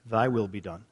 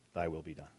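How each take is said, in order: First: Said in the usual way. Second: The verdict spoken much softer and lower; grave, quiet. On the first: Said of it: "those who say to God". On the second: Shown as a demonstration. God's answer to those who refuse him, said very quietly and low. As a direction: let it fall like a quiet final sentence. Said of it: "those to whom God says".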